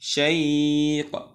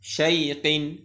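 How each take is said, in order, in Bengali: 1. শব্দটি শেষ ব্যঞ্জনে হঠাৎ থেমে যায়। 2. শব্দের শেষে একটি যোগ করা '-in' অক্ষর থাকে।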